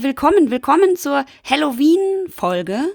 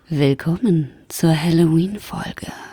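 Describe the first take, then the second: First: It is said in a plain, normal voice. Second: It is said in a seductive vampire voice.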